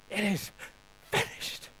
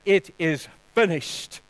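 First: It is finished breathed out as a whisper, voice dropping away. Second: Said in the usual way. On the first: Shown as a demonstration. Preacher repeating the words for the congregation, whispered. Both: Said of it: "putting your past behind you and saying".

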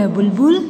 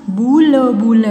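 First: Said in the usual way. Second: बुल, बुल drawn out in parts; syllable by syllable. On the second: Shown as a demonstration. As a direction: sound out बुल, बुल piece by piece. (बुल, बुल तोड़-तोड़ कर) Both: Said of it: "फिर ये सारे बोलने".

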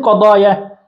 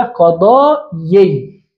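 First: Said in the usual way. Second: قضايي slow, long aa then a separate yi; original underlying form. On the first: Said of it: "لماذا نقول قضايا؟". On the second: Shown as a demonstration. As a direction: stretch قضايي and end on a clear ee sound. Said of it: "الأصل أن نقول ماذا؟". (نطق الأصل «قضايي» ببطء ومد)

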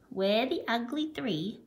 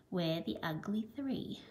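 First: Said in the usual way. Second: Last line of the chant dropped soft; fading quiet close. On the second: A narrator's reading. Teacher ending the animals' song softly. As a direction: let the final line fade away. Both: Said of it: "singing this song".

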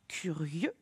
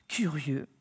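First: Soft whispered word for a reading drill. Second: Said in the usual way. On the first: Shown as a demonstration. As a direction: whisper curieux with no voice, rising at the end.

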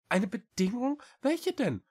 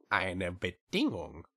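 First: High, rising small cat voice; questioning little cat. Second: Slow, stretched, falling statement; witch stating terms. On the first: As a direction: ask back in a high little voice. (hohe Katerstimme, nachfragend) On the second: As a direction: lay down terms slowly in the witch's voice. Witch names her condition. (gedehnte Schrecksenstimme, fallend) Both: A narrator's reading.

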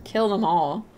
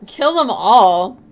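First: Said in the usual way. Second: Loud, slow, incredulous echo; loud disbelief. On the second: Shown as a demonstration. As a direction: repeat it loudly in disbelief.

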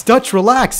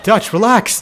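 First: Same words pitched higher and pushed harder; more frantic plea. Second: Urgent plea. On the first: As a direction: plead again, more panicked. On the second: Repeated plea to companion. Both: Real, not acted.

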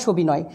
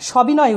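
First: সবিনয় with closed "o" first vowel; wrong O form. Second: সবিনয় with open "aw" first vowel; correct natural vowel. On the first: Teacher showing the form to avoid, সবিনয় with closed o. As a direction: say সবিনয় as "sho-binoy". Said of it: "এটা হবে না". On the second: Teacher giving the correct form, সবিনয় with open aw. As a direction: say সবিনয় as "shaw-binoy". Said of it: "সবিনয় উচ্চারণ হবে". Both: Shown as a demonstration.

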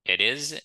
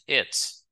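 First: "It is" as two words; uncontracted "It is", is fully voiced; full form. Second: "it's" as one syllable; "it's" ending in a ts sound; contracted form. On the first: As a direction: sound both syllables of "It is". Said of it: "ça, c'est forme complète". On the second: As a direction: merge it and is into "it's". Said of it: "Ça, c'est forme contractée". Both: Shown as a demonstration.

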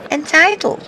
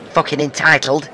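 First: A much higher, incredulous Entitled? thrown back; mocking echo. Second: Said in the usual way. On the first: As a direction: echo Entitled? high and sneering. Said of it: "I know it's three syllables".

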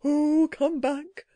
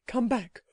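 First: Slow creature plea, pushed a little louder; the creature calling after the startled boy, louder but soft; louder but still soft. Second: Soft creature call. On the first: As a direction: call him back urgently yet still hushed. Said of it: "rather louder, but still softly". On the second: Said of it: "said the voice". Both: A narrator's reading.

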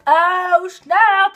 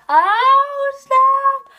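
First: Excited. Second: Much higher, delighted "Oh, snap"; high excited oh snap; thrilled squeal. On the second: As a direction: squeal over the proposal. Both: Real, not acted. Reacting to plot twist.

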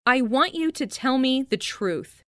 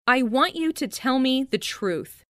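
Both takes have the same delivery.

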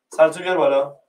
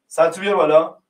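No difference in how they are said.

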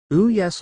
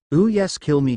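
First: High, louder purring "Ooh yes" with a smirk; a narrator's smirking villainess. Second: Louder purring "Ooh yes" taunt; a narrator's gleeful taunting villainess. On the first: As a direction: savour the "Ooh", smug and amused. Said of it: "Lila smirked". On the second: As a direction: dare him, relishing it. Lila taunting the Hokage. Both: A narrator's reading.

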